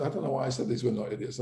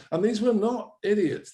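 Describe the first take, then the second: First: Fast, throwaway self-correction; fast, offhand "these were not idiots" with no push on "were"; quick aside. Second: "were" leaned on and higher, falling at the end; higher, insistent "these were not idiots" with weight on "were"; emphatic stress. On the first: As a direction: rattle it off quickly, half to yourself. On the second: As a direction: push the word "were" hard, up high, then fall off. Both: Real, not acted.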